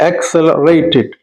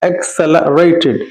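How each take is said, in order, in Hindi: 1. 'l' के बाद एक साफ़ 'a' स्वर आता है। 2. 'l' के बाद एक साफ़ 'a' स्वर आता है।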